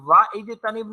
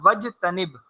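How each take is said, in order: First: A glottal stop separates wa from the verb. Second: Wa runs straight into the verb without a stop. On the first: The speaker calls it wrong. "नहीं पढ़ा जाएगा" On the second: The speaker calls it right. "ये लिखा रहेगा लेकिन पढ़ा नहीं जाएगा"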